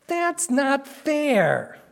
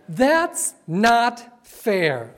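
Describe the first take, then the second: First: Put-on slow, high whiny child. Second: Said in the usual way. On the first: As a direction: whine it like a sulking kid. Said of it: "to say with whiny voice".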